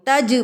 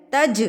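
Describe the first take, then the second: First: تج said with the jeem flat and unshaken; wrong pronunciation demo. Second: تج with the jeem bounced, an echo after the j; qalqalah on jeem. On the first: Teacher voices the wrong تج. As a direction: show the mistake, تج with no bounce on the jeem. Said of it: "تج نہیں پڑھا جائے گا". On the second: Teacher models تج with a bounced jeem. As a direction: shake the jeem in تج. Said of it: "تج جیم ہلا کر پڑھا جائے گا". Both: Shown as a demonstration.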